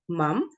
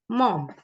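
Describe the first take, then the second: First: The vowel is an open 'uh' sound. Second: The vowel is a rounded 'o' sound.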